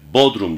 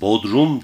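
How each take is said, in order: First: The stress is on the first syllable. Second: The stress is on the second syllable. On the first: It names the town as a place. "O yer bodrumu bahseder değil mi ilçe olarak?" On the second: It names the basement of a house. "ikinciye vurgu yaparsanız o evin bodrumunu ifade eder"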